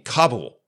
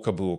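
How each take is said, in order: First: The stress is on the first syllable. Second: The stress is on the last syllable. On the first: This is the newer, trendy pronunciation. "with the accent on the first syllable" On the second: This is the older, long-standing pronunciation. "with the accent being on the last syllable"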